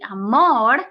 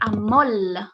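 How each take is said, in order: First: The word ends with an r sound. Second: The word ends with an l sound.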